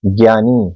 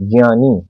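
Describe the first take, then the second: First: ज्ञानी said as "gyani" with a hard g; common wrong pronunciation. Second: ज्ञानी said with ज plus य, like "jnyani"; correct pronunciation. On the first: Teacher shows students the common wrong ज्ञानी. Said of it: "इसका जो हम उच्चारण करते हैं". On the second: Teacher gives students the correct ज्ञानी. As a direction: say ज्ञानी carefully with ज then य. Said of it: "इसका सही उच्चारण हमें करना चाहिए". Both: Shown as a demonstration.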